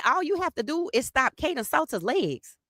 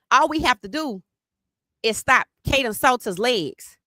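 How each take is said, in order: First: Higher, mocking echo of the rival's words; a higher sneering echo of the rival claim; mock repeat. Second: Slightly higher quote of the rival claim; a lightly voiced rival boast; quoting rivals. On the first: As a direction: parrot them back with scorn. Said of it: "I said". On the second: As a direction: say it as the smug rival. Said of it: "Then what they said was".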